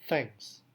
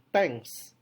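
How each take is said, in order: First: The word starts with a th sound. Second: The word starts with a plain t sound. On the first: It is the intended adult form. The speaker calls it right. "Padahal yang dia maksud thanks" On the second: A young child who cannot yet say th says it. The speaker calls it wrong. "menggunakan bunyi T biasa"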